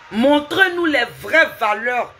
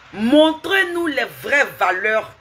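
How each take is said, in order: Both takes have the same delivery.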